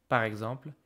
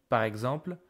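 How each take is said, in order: Both takes have the same delivery.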